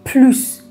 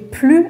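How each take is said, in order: First: The final S sound is pronounced. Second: The final S sound is silent. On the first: The speaker calls it wrong. "اگر شما بگید پلوس" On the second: The speaker calls it right. "به جای پلو"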